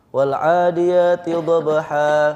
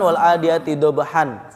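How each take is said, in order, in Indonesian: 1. Bunyi n di akhir dihilangkan tanpa berhenti. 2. Bunyi n di akhir diucapkan, tersambung terus.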